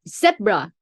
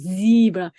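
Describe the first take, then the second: First: It is said with a British pronunciation. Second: It is said with an American pronunciation.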